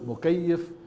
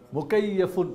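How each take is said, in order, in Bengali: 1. শব্দটি একটি খালি ব্যঞ্জনবর্ণ দিয়ে শেষ হয়। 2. শব্দটি স্বরধ্বনি এবং n দিয়ে শেষ হয়।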